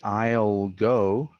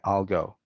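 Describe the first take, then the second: First: I'll has a full, long vowel. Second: I'll has a short, reduced vowel. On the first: The speaker calls it wrong. "this one is not really I'll go" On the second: The speaker calls it right. "the vowel of the pronoun is often reduced to a shorter sound"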